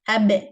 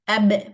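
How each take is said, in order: First: The final consonant is voiced with a bounce. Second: The final consonant is voiced with a bounce.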